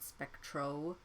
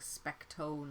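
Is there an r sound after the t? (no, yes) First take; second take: yes; no. First: The name has an r after the t. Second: The name has no r after the t. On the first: The speaker calls it wrong. "I just pronounced it incorrectly there" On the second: The speaker calls it right. "I should be saying Specto"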